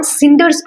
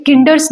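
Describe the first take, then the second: First: सिंडर्स begun with an 's' sound; soft C. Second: किंडर्स begun with a 'k' sound; wrong hard C. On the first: Teacher reading the poem's word correctly, soft C in सिंडर्स. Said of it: "स से, अ, pronounce कर रहे हैं". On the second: Teacher showing how not to read it, hard C in किंडर्स. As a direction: cinders misread as किंडर्स, with a hard C. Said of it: "किंडर्स नहीं पढ़ रहे हैं". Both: Shown as a demonstration.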